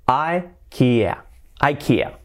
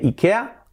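First: IKEA as "eye-KEE-uh", against Spanish "ee-KEH-a"; English "ai-KI-a" for ikea; English pronunciation. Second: Said in the usual way. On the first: Shown as a demonstration. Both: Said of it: "Nada de ikea".

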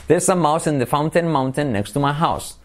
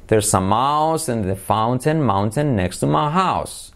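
First: Said in the usual way. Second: Slow, evenly drawn-out words; slow model sentence. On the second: Shown as a demonstration. Teacher giving the mouse sentence last, slowly. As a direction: stretch the vowels for a learner.

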